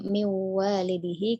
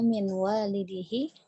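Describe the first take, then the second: First: The n merges into the following w sound. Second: The n is pronounced clearly before the w. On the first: The speaker calls it wrong. "tidak mi walidihi" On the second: The speaker calls it right. "kita baca jelas saja"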